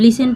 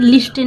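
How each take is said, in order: First: The t sound is silent. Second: The t sound is clearly pronounced. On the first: The speaker calls it right. "तो लिसन में हम लिसन पढ़ते हैं" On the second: The speaker calls it wrong. "लिस्टन नहीं पढ़ा जाता। अगर आप लिस्टन बोलेंगे तो ये रॉन्ग है"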